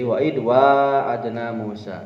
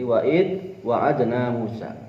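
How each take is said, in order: First: The first vowel of wa'adna is long. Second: The first vowel of wa'adna is short. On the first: "membaca dengan menggunakan alif" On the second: "Wa-nya tidak dibaca panjang"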